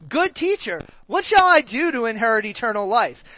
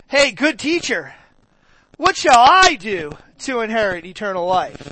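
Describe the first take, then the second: First: It is said in a plain, neutral tone. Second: It is said in a snarky, snooty tone.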